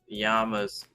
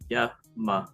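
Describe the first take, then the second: First: The first vowel is an open 'ah' sound. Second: The first vowel is a short 'uh' sound. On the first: The speaker calls it wrong. "I was saying the llamas sound like mama" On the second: The speaker calls it right. "you're supposed to be saying yama. The A in Sanskrit is pronounced like the U in sun"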